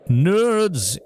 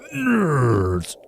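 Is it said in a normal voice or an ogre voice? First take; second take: normal; ogre. First: It is said in a normal voice. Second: It is said in an ogre voice.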